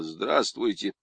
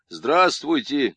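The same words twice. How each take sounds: First: Sullen. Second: «Здравствуйте» louder and drawn out slowly; a bit louder. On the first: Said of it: "хмуро ответил". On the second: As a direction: push «Здравствуйте» out, slow and loud. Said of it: "чуть громче произнёс Цуриков". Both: A narrator's reading.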